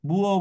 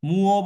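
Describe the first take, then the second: First: The word begins with a b sound. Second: The word begins with an m sound. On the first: "অনেকেই বুও বলে" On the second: "মো এটা কোরিয়ানরা দুই ভাবে উচ্চারণ করে, অনেকেই মুও বলে"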